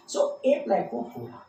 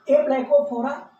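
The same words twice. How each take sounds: First: Said in the usual way. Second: "ए प्लेकोफोरा" repeated louder, "ए" stressed, rising at the end; emphatic repeat. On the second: Shown as a demonstration. ("ए प्लेकोफोरा" को ज़ोर से, "ए" पर बल देकर, उठते सुर में दोहराओ)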